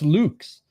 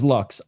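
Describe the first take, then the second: First: The vowel is long, like in 'Luke'. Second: The vowel is short, like in 'luck'. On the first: The speaker calls it right. "It's pronounced Lux" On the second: The speaker calls it wrong. "It's not pronounced as Lux"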